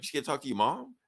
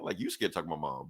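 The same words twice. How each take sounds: First: Higher, rising to a question on "mom"; acted-out question, lifting at "mom"; incredulous question. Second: Lower, quick, falling on "mom"; acted-out comeback, pitch dropping to "mom"; retold retort. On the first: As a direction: ask "You scared to talk to your mom?" in mild disbelief, pitch up. Teasing question in retold exchange. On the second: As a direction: throw back "you scared to talk to my mom" fast and low. Retold retort, thrown back.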